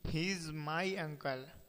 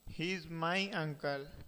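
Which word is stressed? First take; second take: is; uncle. First: The stress falls on the word is. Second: The stress falls on the word uncle. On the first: It really is true, so there is no reason to doubt it. "Why do you doubt?" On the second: He is an uncle, not a father. "not father"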